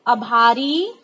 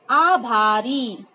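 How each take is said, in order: First: आभारी with a short first "a", said quickly; wrong form, short a. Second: आभारी very slowly, with a long open "aa" at the start; correct form, long aa. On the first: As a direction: say आभारी wrongly, as "abhari" with a clipped first vowel. (आभारी का गलत उच्चारण, पहला स्वर छोटा) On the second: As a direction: drag out the first vowel of आभारी for the class. (आभारी का सही उच्चारण, बहुत धीरे, लंबा आ) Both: Shown as a demonstration. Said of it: "आ की मात्रा होनी चाहिए".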